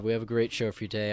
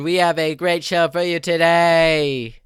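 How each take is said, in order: First: It is said in his normal voice. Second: It is said in an odd put-on voice.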